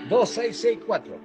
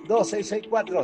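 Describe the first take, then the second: First: It is said slowly. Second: It is said fast.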